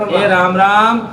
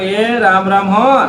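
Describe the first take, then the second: First: Said in the usual way. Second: Slow, drawn-out "એ રામ રામ હો" with a rise on હો; slow, gentle "એ રામ રામ હો"; drawn-out greeting. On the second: Shown as a demonstration. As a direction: stretch the blessing greeting "એ રામ રામ હો" slowly, ending up on હો. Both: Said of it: "કહેવાનું".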